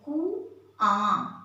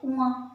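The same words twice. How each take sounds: First: The final vowel is nasalized through mouth and nose. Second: The word ends with a separate nasal consonant. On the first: The speaker calls it right. "कुआं मुंह से भी करते हैं और नाक से भी इसका स्वर निकलता है" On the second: The speaker calls it wrong. "ऐसे ही बोलते हैं कुआं, पर कुआं नहीं है"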